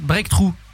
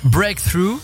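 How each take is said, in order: First: It is said with a full French accent. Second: It is said with a full English accent.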